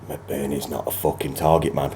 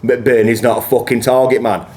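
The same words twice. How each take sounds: First: It is said at an ordinary speaking volume. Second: It is said noticeably louder and more forcefully.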